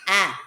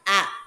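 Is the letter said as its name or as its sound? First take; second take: sound; sound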